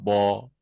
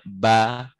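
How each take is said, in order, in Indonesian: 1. Huruf itu dibaca tebal dan berat. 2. Huruf itu dibaca tipis dan ringan. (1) "tidak bo" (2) "ba tipis"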